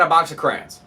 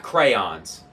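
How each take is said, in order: First: "crayons" in one syllable, CRANS; preferred pronunciation. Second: "crayons" as CRAY-ONS; rejected pronunciation. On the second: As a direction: say "crayons" in two full syllables, CRAY-ONS. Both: Shown as a demonstration. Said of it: "Not crayons".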